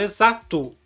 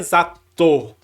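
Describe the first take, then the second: First: The word ends with an 'oo' vowel. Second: The word ends with an 'oh' vowel. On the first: The speaker calls it right. "a gente fala exato. É um som de U que a gente coloca no final" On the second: The speaker calls it wrong. "A gente não fala exato"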